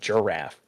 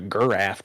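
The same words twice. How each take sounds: First: The word starts with a soft G sound. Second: The word starts with a hard G sound. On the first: The speaker calls it right. "You call it a giraffe" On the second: The speaker calls it wrong. "You don't call it a giraffe"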